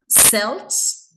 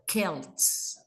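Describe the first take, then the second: First: The word begins with a soft S sound. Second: The word begins with a hard K sound.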